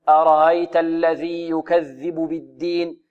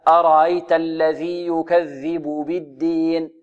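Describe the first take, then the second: The two takes are said the same way.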